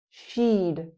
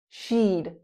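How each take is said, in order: The two takes are said the same way.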